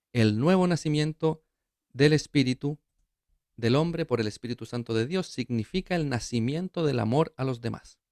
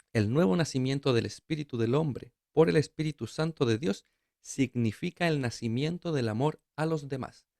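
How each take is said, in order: Both takes have the same delivery.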